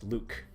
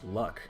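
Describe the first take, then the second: First: The vowel is long, like in 'Luke'. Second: The vowel is short, like in 'luck'. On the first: "people tell me it's pronounced Luke" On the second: "I've always pronounced this guy's name as Luck"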